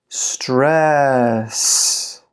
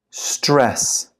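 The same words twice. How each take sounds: First: One syllable, slowly drawn out; slow model for repeating; slow pronunciation. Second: Said in the usual way. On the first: Shown as a demonstration. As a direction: stretch the word out for learners. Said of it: "then I'll read it slow". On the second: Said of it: "I'll read it fast".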